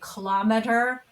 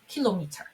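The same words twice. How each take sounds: First: It is said in an American accent. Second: It is said in a British accent. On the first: "we say kilometer" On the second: "in British English, we say ... kilometer"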